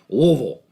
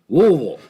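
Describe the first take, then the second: First: It is said mumbled, with slurred sounds. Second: It is said mumbled, with slurred sounds.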